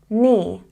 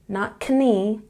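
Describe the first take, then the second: First: The K at the start is silent. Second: The K at the start is pronounced. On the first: The speaker calls it right. "don't say the K" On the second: The speaker calls it wrong.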